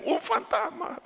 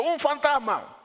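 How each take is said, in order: First: High laughing mock of ghost; amused high mock cry. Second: High frightened cry of ghost; high scared shout of ghost. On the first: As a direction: laugh at their panic as you say it. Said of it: "Pero ellos dijeron". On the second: Retold or imitated. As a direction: cry out like scared disciples at night. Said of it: "se turbaron diciendo".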